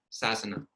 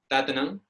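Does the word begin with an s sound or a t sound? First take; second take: s sound; t sound. First: The word begins with an s sound. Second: The word begins with a t sound. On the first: It follows the Indian way of saying it. "es una sibilante y se tiene que pronunciar sa" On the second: It follows the Burmese way of saying it. "si te enseñan que para decir uh, sasana se dice tatanam"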